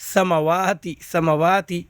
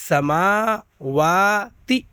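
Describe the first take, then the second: First: سماواتی said quickly, the ما not stretched; children's mistake. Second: سماواتی said slowly with the ما long and drawn out; correct reading. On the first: Teacher demonstrates the pupils' error, short ما in سماواتی. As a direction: rush through سماواتی with a short ما, as kids wrongly do. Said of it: "لیکن بچے کیا غلطی کرتے ہیں پڑھتے وقت". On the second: Teacher shows the right way, long ما in سماواتی. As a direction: stretch the ما in سماواتی, syllable by syllable. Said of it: "ایسے پڑھیے گا". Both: Shown as a demonstration.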